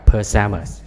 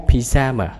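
First: PAJAMAS with a reduced "puh" start; American pronunciation. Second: PYJAMA with a clear "pi" start; British pronunciation. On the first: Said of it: "Anh Mỹ sắp trước". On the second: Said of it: "Anh sắp trước". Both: Shown as a demonstration.

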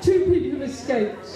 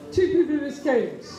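The two takes are said the same way.

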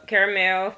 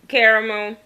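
First: "caramel" in three syllables with a full "mel" at the end; "caramel" as care-uh-MEL. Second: "Caramel" in two syllables, ending in a loose "mo"; "Caramel" as CARE-mo. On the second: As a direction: say "Caramel" as CARE-mul, swallowing the L. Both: Shown as a demonstration. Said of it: "see if I say 'em like you".

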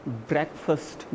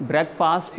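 First: ब्रेकफास्ट said "BREK-fust", with a short, weak second vowel; correct pronunciation. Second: ब्रेकफास्ट said "brek-FAAST", with a full long "aa"; wrong pronunciation. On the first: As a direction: reduce the end of ब्रेकफास्ट to a quick "fust". (ब्रेकफास्ट को "ब्रेकफ़स्ट" बोलें, छोटे "फ़स्ट" के साथ) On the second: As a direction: give the end of ब्रेकफास्ट the full vowel of "fast". (ब्रेकफास्ट को लंबे "आ" के साथ "ब्रेक-फ़ास्ट" बोलें) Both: Shown as a demonstration. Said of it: "ब्रेकफास्ट नहीं".

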